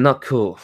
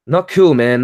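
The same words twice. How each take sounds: First: Said in the usual way. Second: Louder, punched disapproval; loud scolding. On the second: Real, not acted. Scolding people who deny good and bad, said louder.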